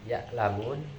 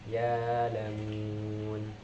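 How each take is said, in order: First: A glottal stop closes the first syllable. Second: The first vowel is long with no stop. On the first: "awal mulanya"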